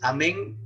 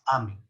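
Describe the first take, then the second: First: It is said the ordinary Spanish way. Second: It is said the Latin way. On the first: This is how it is usually said. "Normalmente es amén" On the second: This is how it is said in Latin. "pero en latín es amén"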